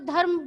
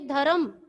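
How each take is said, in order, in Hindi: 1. r, m से सीधे जुड़ता है, बीच में कोई स्वर नहीं। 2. r और m के बीच एक छोटा स्वर आता है। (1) "म पे र की मात्रा जब चली जाती है तो वो धर्म बोला जाएगा" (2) "ध र और म अलग अलग किया गया है तो ये धर्म"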